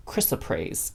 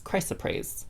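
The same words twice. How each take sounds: First: Chrysoprase with CHRIS as first syllable; short-i pronunciation. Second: Chrysoprase with CRY as first syllable; long-i pronunciation. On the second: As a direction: say chrysoprase as "CRY-suh-praze". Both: Shown as a demonstration. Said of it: "Not sure how you say that".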